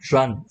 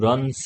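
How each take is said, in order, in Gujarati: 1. છેલ્લો s અવાજ હળવેથી બોલાય છે. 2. છેલ્લો s અવાજ ભારથી બહાર કાઢવામાં આવે છે.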